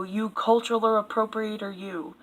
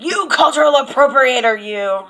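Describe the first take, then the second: First: Muttered mock scolding, trailing off; mock accusation. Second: Hammed-up accusation, higher and louder; mock accusing yell. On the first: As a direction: sneer it under your breath. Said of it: "don't ever make a taco". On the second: Mocking online accusers, a loud hammed-up yell. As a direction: yell it like an outraged commenter. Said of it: "than coming out and be like".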